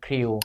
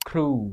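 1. คำนี้ลงท้ายด้วยเสียงกึ่งสระ 'ew' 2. คำนี้ลงท้ายด้วยสระเสียงยาว 'oo' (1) "ที่โรงเรียนทั่วไปน้องจะถูกสอน ... ให้ออกเสียงเป็นอิว" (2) "เขาจะออกเสียงเป็นครู ... เสียงสระอู"

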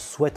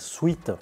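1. La voyelle est courte, comme dans 'bet'. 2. La voyelle est longue, comme dans 'beet'. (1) "ça se prononce sweat en anglais" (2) "non pas sweet"

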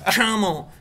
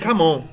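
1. Começa com um som suave de 'sh'. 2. Começa com um som forte de 'k'. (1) "O Michael tem uma dicção. O que é chamon?" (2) "Eu lia camon"

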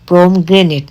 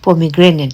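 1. 'pom' আর 'gra'-এর মাঝে কোনো স্বরধ্বনি নেই। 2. 'pom' আর 'gra'-এর মাঝে একটা 'i' স্বরধ্বনি আছে। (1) "এটার উচ্চারণটা হবে পমগ্রেনেট" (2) "নট পমিগ্রেনেট"

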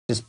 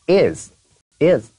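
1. 这个单词读得弱，且被弱化了。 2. 这个单词读得完整、清楚。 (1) "是被弱读的" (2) "如果非得看它的音标的话，它是is"

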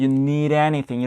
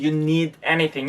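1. d는 anything으로 넘어가면서 빠르게 플랩하는 소리예요. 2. d는 완전히 파열되는 d 소리예요. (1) "여기서 플랩하면 you need anything 이런 식으로 발음을 해줍니다" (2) "그냥 you need anything 이렇게 발음을 해도 완벽한 발음입니다"

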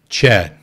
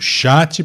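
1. A palavra é pronunciada com pronúncia inglesa. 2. A palavra é pronunciada com pronúncia portuguesa. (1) "Se eu estivesse falando inglês, como é que eu falaria? Eu falaria chat" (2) "eu estou falando chat porque eu estou falando português"

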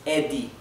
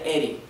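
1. La consonante del medio es una D clara. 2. La consonante del medio es un golpe suave tipo R. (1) "es Eddie ... se pronuncia claramente la D" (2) "esto nunca se pronunciaría Eri"

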